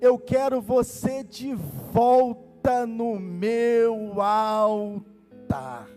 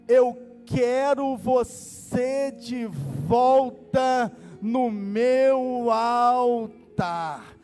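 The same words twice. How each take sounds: First: The sentence is spoken at a normal pace. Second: The sentence is spoken very slowly.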